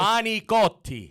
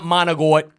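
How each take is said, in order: First: The word ends with a full final vowel. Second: The word ends clipped, with the final vowel dropped. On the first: The speaker calls it right. "It's manicotti" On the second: The speaker calls it wrong. "It's not pronounced manigot"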